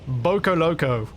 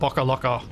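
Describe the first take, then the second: First: The word is said with long vowels. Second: The word is said with short vowels. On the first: The speaker calls it wrong. "If if I was reading it phonetically based on Australian uh, pronunciation rules" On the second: The speaker calls it right. "it would be a shorter vowel sound"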